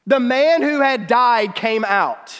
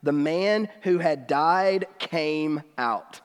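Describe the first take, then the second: First: Each word weighed, slow and louder, landing on "man"; slow emphatic repeat. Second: Said in the usual way. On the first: Shown as a demonstration. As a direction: let the wonder of it sink in slowly. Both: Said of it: "just think about how weird that sentence is".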